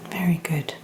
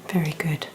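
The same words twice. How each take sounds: The two takes are said the same way.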